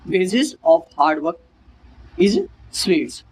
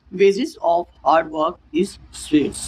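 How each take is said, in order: First: Very slow, broken into two parts; slow repeat. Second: Very slow, word by word; teacher dictating slowly; slow example read. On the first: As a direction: repeat it in chunks slowly. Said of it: "repeat of example". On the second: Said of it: "इसका example क्या है". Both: Shown as a demonstration.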